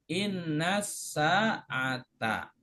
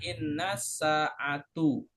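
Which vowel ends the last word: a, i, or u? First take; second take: a; u. First: The last word ends with an a vowel. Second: The last word ends with a u vowel. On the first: The speaker calls it right. "harokat terakhirnya mansub yaitu dengan fathah" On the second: The speaker calls it wrong. "Nggak boleh dibaca"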